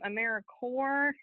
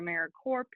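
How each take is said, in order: First: The last part sounds like 'core'. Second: The last part sounds like 'corp'. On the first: The speaker calls it right. "please use uh, the right pronunciation" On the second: The speaker calls it wrong. "or AmeriCorp"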